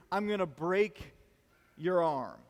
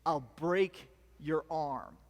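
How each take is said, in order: First: Said in the usual way. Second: Lower, slow, deliberate trash-talk threat; menacing threat. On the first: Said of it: "the dumb things that guys say". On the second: Retold or imitated. Pumped-up wrestler threatening his opponent before the final match, low and slow. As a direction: drag out each word like a tough guy sizing up his rival. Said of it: "he goes".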